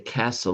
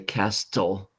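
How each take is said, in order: First: The T sound is silent. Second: The T sound is clearly pronounced. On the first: The speaker calls it right. "we say castle" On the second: The speaker calls it wrong. "we don't say castle"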